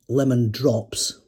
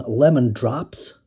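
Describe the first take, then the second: First: It is said with a non-American pronunciation. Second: It is said with an American pronunciation. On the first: The speaker calls it wrong. "not lemon drops" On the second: The speaker calls it right. "as in lemon drops"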